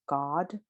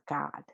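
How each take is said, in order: First: God with a rounded AW, like GAWD; rounded back vowel in God. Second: God with a flattened, fronted AH; unrounded vowel in God; contrasting vowel. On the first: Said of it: "that aw vowel". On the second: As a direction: say God nearly like GAD. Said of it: "this one and not God". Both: Shown as a demonstration.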